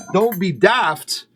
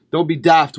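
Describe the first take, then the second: First: Mock Scottish. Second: Said in the usual way. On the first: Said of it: "I'm not gonna do a brogue".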